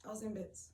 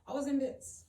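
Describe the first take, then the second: First: Said in the usual way. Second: Raised, higher-pitched admission; emotional emphasis. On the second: Real, not acted. Recalling the hug from a stranger, emotional emphasis. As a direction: push it out high and loud.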